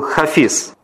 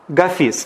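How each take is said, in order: First: The name begins with a breathy H sound. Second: The name begins with a hard G sound. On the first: This is the original form of the name. "а вообще он был Хафиз" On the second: This is the Russian form of the name. "Гафис по-русски"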